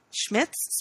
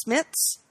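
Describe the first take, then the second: First: "Schmitz" with an opening SH sound, questioning; unsure pronunciation. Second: "Schmitz" said SMITS, plain S at the start; unsure pronunciation. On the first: Co-host sounding out an actor's name, "Schmitz" softly with SH. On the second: Co-host trying the actor's name another way, "Schmitz" as SMITS. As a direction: say "Schmitz" without the SH, softly asking. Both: Shown as a demonstration. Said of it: "looks like".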